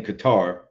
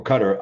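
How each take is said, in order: First: Qatar said kuh-TAR; first pronunciation. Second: Qatar said like "cutter"; alternative pronunciation. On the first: Host naming the World Cup country, Qatar as kuh-TAR. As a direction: stress the second syllable of Qatar, kuh-TAR. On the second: Host offering another pronunciation, Qatar as CUT-er. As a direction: stress the first syllable of Qatar, CUT-er. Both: Shown as a demonstration. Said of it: "I hear so many different pronunciations".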